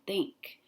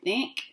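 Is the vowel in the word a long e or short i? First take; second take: long e; short i. First: The vowel is a long e sound. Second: The vowel is a short i sound. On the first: The speaker calls it right. "it says the E sound" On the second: The speaker calls it wrong. "Is that I making the I sound? Do you say think? No"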